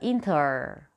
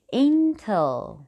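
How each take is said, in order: First: The ending is a Chinese-style 'er' sound. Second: The final L is made with the tongue raised. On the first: The speaker calls it wrong. "不叫英特尔" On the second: The speaker calls it right. "L 的发音是要把舌头翘起来，顶在上牙床的后面"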